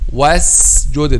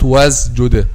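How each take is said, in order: First: The s sound is a clear s. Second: The s sound is voiced like z. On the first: The speaker calls it right. "pronounce it as cl- clear letter sin one hundred percent" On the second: The speaker calls it wrong. "this is whether between letter sin and letter zay, or letter zay"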